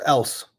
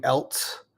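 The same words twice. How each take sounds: First: Said in the usual way. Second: "else" pronounced like "elts"; "else" with added T. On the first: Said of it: "No, it's else". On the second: Shown as a demonstration. Reading a viewer's accent question, "else" as "elts". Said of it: "makes it sound like you're saying".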